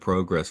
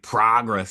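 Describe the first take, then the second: First: The first vowel is softened, less nasal. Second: The first vowel is a nasal American vowel. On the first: "but progress feels nicer" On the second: "I think progress is the correct way to say it"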